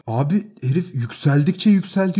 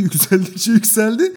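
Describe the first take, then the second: First: Said in the usual way. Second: "yükseldikçe yükseldi" drawn out slowly, higher, with a laugh; rising emphasis. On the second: Retold or imitated. Telling friends how the landlord kept escalating, "yükseldikçe yükseldi" drawn out slowly with a laugh. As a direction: stretch "yükseldikçe yükseldi" to show him escalating.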